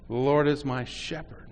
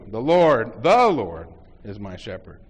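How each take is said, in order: First: The word "shepherd" is stressed. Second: The word "The" is stressed.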